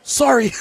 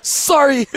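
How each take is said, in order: First: Higher, casual imitated sorry; cool sorry. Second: Higher, breezy mock sorry; just like he said it. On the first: Host imitating coworker who ate the steak, breezy higher sorry. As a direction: toss off a breezy mock apology. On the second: Host repeating coworker's exact apology, breezy higher sorry. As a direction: repeat the cool casual apology. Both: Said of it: "He said it just like that".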